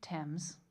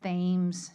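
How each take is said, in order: First: Thames is said with its usual pronunciation. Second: Thames is said with the Baltimore local pronunciation. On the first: This is what an outsider would expect. "you would think Thames" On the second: This is how locals say the street name. "if you live in Baltimore, it's Thames Street. Which sounds absolutely hideous"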